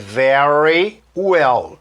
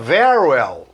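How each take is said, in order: First: The two words are said separately with a pause. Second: The two words run together as one unit. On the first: "se eu falasse pausado" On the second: "quando eu junto isso aí, eu mato esse Y e faço uma coisa só"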